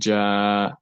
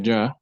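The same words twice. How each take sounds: First: The vowel is drawn out long. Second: The vowel is short. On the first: "I want to elongate it, I can put Alif and say Ja" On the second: "Jim Fatha Ja"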